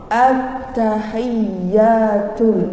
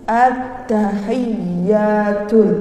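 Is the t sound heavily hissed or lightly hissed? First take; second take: lightly hissed; lightly hissed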